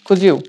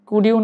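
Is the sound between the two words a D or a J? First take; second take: J; D. First: A J sound links the two words. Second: A clear D sound links the two words. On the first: The speaker calls it right. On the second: The speaker calls it wrong. "কুডিউ না বলে"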